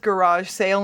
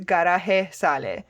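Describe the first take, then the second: First: Garage is said with English sounds. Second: Garage is said with Spanish sounds. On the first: "this is just garage sale in English" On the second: "pronouncing it as if it was a Spanish word"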